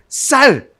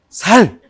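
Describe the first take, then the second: First: The first s sound is tense and strong. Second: The first s sound is plain and soft. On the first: The speaker calls it right. "쌀 해봐" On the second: The speaker calls it wrong. "경상도 사람이 뭐가 안 돼요?"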